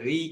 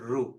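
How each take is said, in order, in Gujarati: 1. સ્વર 'ri' જેવો બોલાય છે. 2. સ્વર 'ru' જેવો બોલાય છે. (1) "ઘણા બધા આમાં શું કરે છે? રી કે છે. ... અંગ્રેજોનો પ્રભાવ" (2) "આપણે રૂ જ રાખીએ"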